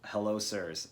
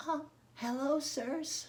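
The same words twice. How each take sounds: First: Said in the usual way. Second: Put-on little boy voice. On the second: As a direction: pitch it way up like a sweet little boy. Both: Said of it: "In your best little boy voice".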